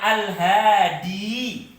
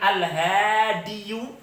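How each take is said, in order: First: The word ends in a plain long 'i' sound. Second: The word ends with an added 'yu' syllable. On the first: The speaker calls it right. "yang saya tulis dengan tanpa yang lainnya" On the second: The speaker calls it wrong. "ini sulit pemirsa. Berat bagi pemiliknya"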